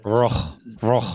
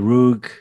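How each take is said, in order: First: The name is said with its original pronunciation. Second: The name is said with an American pronunciation. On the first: "That's how you pronounce it" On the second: "maybe the way Americans pronounce it"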